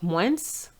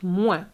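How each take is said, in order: First: The final S is pronounced. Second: The final S is silent. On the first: The speaker calls it wrong. "The moins is not moins" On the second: The speaker calls it right. "The S is silent"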